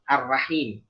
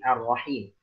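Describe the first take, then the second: First: The r is pronounced light and thin. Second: The r is pronounced heavy and full. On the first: The speaker calls it wrong. "jangan ar-rahim" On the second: The speaker calls it right. "dijaga tafkhim pada huruf ro"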